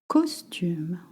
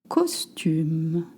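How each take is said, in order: No difference in how they are said.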